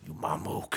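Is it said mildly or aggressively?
aggressively. It is said aggressively, with strong emphasis.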